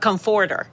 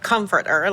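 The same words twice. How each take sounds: First: The stress is on the second syllable. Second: The stress is on the first syllable. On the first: The speaker calls it wrong. "because I was pronouncing it ... the second syllable is the one you emphasize" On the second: The speaker calls it right. "like we do it"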